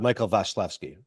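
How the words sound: The name is said with a Polish accent.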